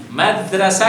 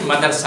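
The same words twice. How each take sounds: First: First مدرسہ said "mad-ra-sa", vowel after the r; madrasa pronunciation. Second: مدرسہ said "ma-dar-sa", vowel before the r; madarsa pronunciation. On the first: (مدرسہ کا تلفظ "مَدْرَسَہ"، دال ساکن) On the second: (مدرسہ کا تلفظ "مَدَرسہ"، را ساکن) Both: Shown as a demonstration. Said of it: "مدرسہ کی مدرسہ ہوتا ہے".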